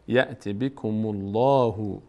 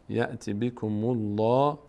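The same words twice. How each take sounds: The two takes are said the same way.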